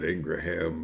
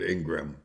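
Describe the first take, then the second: First: The name is said with three syllables. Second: The name is said with two syllables. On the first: This is how the speaker would naturally say it. "I would pronounce that Ingraham" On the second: This is how the name's owner says it. "Ingram is how she pronounces it"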